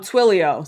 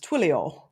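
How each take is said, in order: First: It is said in the speaker's usual American accent. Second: It is said in a put-on British accent.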